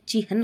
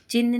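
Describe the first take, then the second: First: Said in the usual way. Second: चिन्ह said as short "chin"; wrong pronunciation. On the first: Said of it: "होता है". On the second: Shown as a demonstration. Teacher rejecting a word, चिन्ह said "chin". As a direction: cut चिन्ह to one syllable, chin. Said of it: "नहीं होता है".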